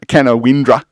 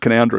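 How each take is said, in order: First: The name is sounded out as it is spelled. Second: The name is said in its shorter local form. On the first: The speaker does not know the town. The speaker calls it wrong. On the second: The speaker knows the town. The speaker calls it right.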